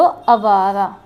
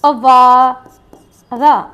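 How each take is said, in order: First: Said in the usual way. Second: अवारा stretched out very slowly, every syllable held; slow model word. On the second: Shown as a demonstration. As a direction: draw अवारा out for the class. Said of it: "तो अवारा".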